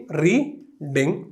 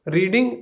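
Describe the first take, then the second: First: reading in two separate beats, री, pause, ding; split into syllables. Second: Said in the usual way. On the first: Shown as a demonstration. Teacher showing how it reads, reading split as री-डिंग. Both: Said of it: "दो बार में पढ़ते हैं".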